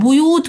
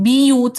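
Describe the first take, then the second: First: The first syllable has an 'u' vowel. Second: The first syllable has an 'i' vowel.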